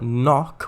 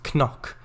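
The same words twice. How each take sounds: First: The word starts with an n sound. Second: The word starts with a k sound. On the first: This is the modern pronunciation. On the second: This is the original, older pronunciation.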